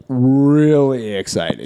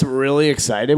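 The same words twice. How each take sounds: First: REALLY drawn out slowly; a long, emphatic "really"; stress on REALLY. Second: Said in the usual way. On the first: Real, not acted. Repeats the phrase for emphasis.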